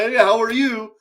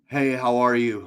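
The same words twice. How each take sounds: First: It sounds overly excited and gushing. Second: It sounds flat and unenthusiastic. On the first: The enthusiasm is exaggerated and fake. "You don't have to be overly" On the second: The caller has no real interest. "Like that shit doesn't work"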